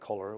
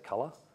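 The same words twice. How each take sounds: First: It is said in a non-Australian accent. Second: It is said in an Australian accent. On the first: "instead of saying colour" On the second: "we say colour"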